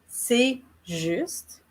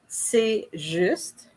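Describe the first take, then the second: No difference in how they are said.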